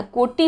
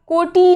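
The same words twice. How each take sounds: First: कोटि with a short final i, koti; कोटि as ko-ti, short ending; कोटि, छोटी इ के साथ; correct pronunciation. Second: कोटि with a long final ee, kotee; कोटि said higher and louder as the wrong form; कोटि, बड़ी ई के साथ; wrong pronunciation. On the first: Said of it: "कोटि होता है". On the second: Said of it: "कोटि नहीं होता है". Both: Shown as a demonstration.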